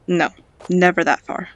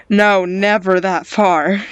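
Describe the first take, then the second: First: Said in the usual way. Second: "No, never that far" drawn out slowly, each word firmly punched; emphatic repeat. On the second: Real, not acted. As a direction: press hard on "No" and "never", slowing down. Firmer repeat of same refusal.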